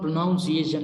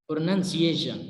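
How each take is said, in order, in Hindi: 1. दूसरा अक्षर 'nounce' जैसा सुनाई देता है। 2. दूसरा अक्षर 'nun' जैसा सुनाई देता है। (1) "it is not प्रोनाउंसिएशन" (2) "it is प्रोनंसिएशन"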